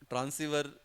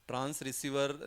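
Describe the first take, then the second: First: It is said as transiver, without receiver. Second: It is said as trans plus receiver. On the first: The speaker calls it right. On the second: The speaker calls it wrong. "ट्रांस रिसीवर नहीं"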